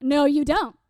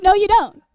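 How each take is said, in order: First: Emphatic, moderately forceful denial; firm contradiction. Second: Loud, high comic outburst; vehement contradiction. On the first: Zealous teen corrects her friend, firm denial. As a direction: cut the friend off with certainty. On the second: Zealous teen shouts down her friend, hammed-up loud denial. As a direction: explode over the friend's words. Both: Retold or imitated.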